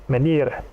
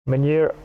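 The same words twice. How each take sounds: Both takes have the same delivery.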